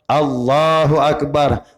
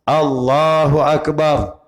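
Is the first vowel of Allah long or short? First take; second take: long; long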